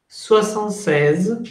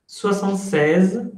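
No difference in how they are said.

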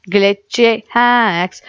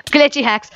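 First: Slow, drawn-out glitchy hacks. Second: Higher, quicker glitchy hacks; higher pitch. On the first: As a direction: stretch each word slowly. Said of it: "repeats phrase slowly". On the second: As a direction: pop it up high. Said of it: "repeats phrase higher". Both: Shown as a demonstration.

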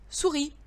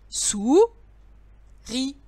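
First: Said in the usual way. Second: "Sou-ri" split in two, a clear pause after "Sou"; "Sou-ri" as two separate, emphatic syllables. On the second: Shown as a demonstration. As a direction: draw out "Sou", pause, then add "ri". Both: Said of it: "il faut que tu colles".

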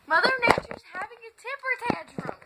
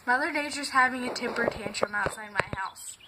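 First: Higher, louder, faster repeat for a friend who didn't hear; emphatic repeat over the phone. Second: Said in the usual way. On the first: Shown as a demonstration. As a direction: say it again so she gets it. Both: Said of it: "She's doing what?".

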